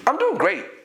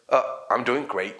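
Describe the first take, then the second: First: It is said warmly and cheerfully. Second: It is said flat, like a robot.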